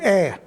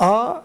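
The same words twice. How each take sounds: First: The vowel sounds light and plain. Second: The vowel sounds heavy and emphatic. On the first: "وأحيانا مرقق" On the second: "أحيانا مفخم"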